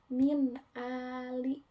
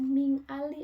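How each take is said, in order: First: The n is pronounced as a clear n. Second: The n is blurred into an ng sound. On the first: The speaker calls it right. "tapi bacanya jelas" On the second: The speaker calls it wrong. "bukan ming ali"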